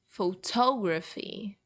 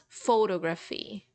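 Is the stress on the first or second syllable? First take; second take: second; first. First: The stress is on the second syllable. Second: The stress is on the first syllable. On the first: The speaker calls it right. "rather photography ... the strongest one is toe" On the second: The speaker calls it wrong. "it's not photography"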